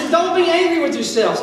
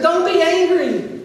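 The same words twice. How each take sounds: First: Pleading, stress on be; earnest plea; emphatic plea. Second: Slowed, stress on be; deliberate plea; slow emphatic plea. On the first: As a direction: urge them not to blame themselves. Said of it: "And he says". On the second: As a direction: press the point home. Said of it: "He said". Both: Shown as a demonstration.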